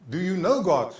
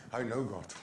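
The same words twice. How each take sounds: First: Louder question leaning on KNOW; raised, emphatic "know" in a challenge; posed question. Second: Low, soft "I know God"; reply quietly, dropping away after "know"; hushed, matter-of-fact imitated reply; assured answer. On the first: Acted. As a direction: ask pointedly, punching the word "know". Acts question put to grandchild. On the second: Acts the grandchild's assured answer.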